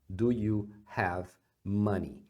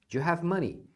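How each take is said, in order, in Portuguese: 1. "Do" e "you" são falados como palavras separadas. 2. "Do you" é fundido em um som rápido só. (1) "você pode falar separado" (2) "você poderia emendar na fala"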